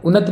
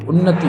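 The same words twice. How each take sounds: First: उन्नत ending on t, without final i; clipped ending on उन्नत. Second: Said in the usual way. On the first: Shown as a demonstration. Teacher showing the wrong form, उन्नत with no final i. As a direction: drop the last vowel, "unnat". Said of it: "उन्नत नहीं होती भाई". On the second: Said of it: "उन्नति होती है".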